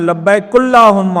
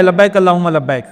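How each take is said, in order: First: لبیک said slowly as labbaiku, with a pesh on the kaf; mock mispronounced talbiyah, labbaiku allahumma; deliberately wrong. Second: Said in the usual way. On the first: Shown as a demonstration. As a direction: stretch out لبیک اللہم with a u vowel after the kaf. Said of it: "مثلاً کاف پہ پیش لگا دی". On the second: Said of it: "تلبیہ آپ کو صحیح پڑھنے کے لیے".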